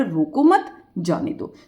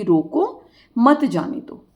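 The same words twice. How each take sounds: First: Slow, "रोको मत" joined, then a pause; comma after मत. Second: Slow, "रोको" set apart by a pause; comma after रोको. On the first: Teacher giving the opposite reading, pause after "मत". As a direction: pause after "मत" before "जाने दो". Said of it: "अब क्या रहा". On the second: Teacher proving the comma matters, pause after "रोको". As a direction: pause after "रोको", then "मत जाने दो" as one phrase. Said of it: "इस कोमे का इतना बड़ा महत्व". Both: Shown as a demonstration.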